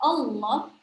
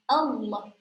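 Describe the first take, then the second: First: The first vowel sounds thick, like an 'o'. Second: The first vowel is an open, clear 'a'. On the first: The speaker calls it wrong. "nah itu seperti O, atau dia nanti terdengar tebal" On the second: The speaker calls it right. "Tapi bacanya apa? A, A"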